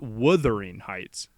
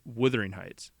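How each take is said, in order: First: The first vowel is a fuller, rounder sound. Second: The first vowel is a short, soft 'uh'. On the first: The speaker calls it wrong. "It's not" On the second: The speaker calls it right. "it's a softer U"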